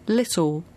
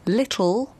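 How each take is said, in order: First: The final L sounds like a vowel. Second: The final L is a full L sound. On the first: The speaker calls it wrong. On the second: The speaker calls it right. "if a word ends with an L, it's more difficult to pronounce"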